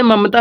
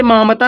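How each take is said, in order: First: ममता with a short first a, mum-ta; correct reading of Mamta. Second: मामता with a long first a, maa-mta; wrong reading of Mamta. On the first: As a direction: say ममता with both short a sounds. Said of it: "इसे ममता ही पढ़ेंगे". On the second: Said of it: "इसे मामता नहीं पढ़ेंगे". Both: Shown as a demonstration.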